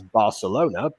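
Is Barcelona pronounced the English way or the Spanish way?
English. It is pronounced in the usual English way. "everyone pronounces as Barcelona"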